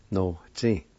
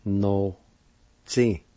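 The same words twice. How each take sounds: First: "No, tsi" closer together as one word; connected teaching take of "No, tsi"; joined-up pronunciation. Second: "No, tsi" with a clear gap between syllables; broken-up teaching take of "No, tsi"; syllable-by-syllable demo. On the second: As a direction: sound out "No, tsi" slowly and separately. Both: Shown as a demonstration. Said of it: "It's pronounced like this".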